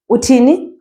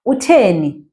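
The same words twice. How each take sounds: First: Uthini said with a clear i in the middle, rising; Uthini contrasted. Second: Utheni said with a clear e in the middle, falling; Utheni contrasted. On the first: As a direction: stress the thi of Uthini against Utheni. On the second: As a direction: stress the the of Utheni against Uthini. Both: Shown as a demonstration.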